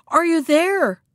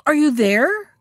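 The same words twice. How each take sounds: First: High, impatient demand, falling at the end; very cross call. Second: Raised, louder questioning call; crying out. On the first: Shark to the silent monkey, very cross. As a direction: call out crossly with raised pitch. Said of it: "louder than before, and in a very cross voice". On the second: Tired shark to the hidden monkey, calling out. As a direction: call up, pitch climbing at the end. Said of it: "cried the shark". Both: A narrator's reading.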